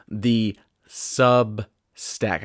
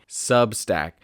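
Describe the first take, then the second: First: "The Substack" dragged out very slowly, the S of "Substack" sliding toward a th sound; slipping toward th. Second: Said in the usual way. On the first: Real, not acted. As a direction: stretch out "The Substack" as the S nearly becomes a th. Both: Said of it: "I keep wanting to use T H instead of S".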